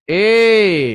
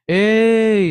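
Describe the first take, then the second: First: The vowel has a slight, barely noticeable twang. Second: The vowel has no twang at all. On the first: "is subtle" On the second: "is no twang at all"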